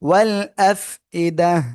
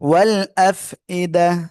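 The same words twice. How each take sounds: No difference in how they are said.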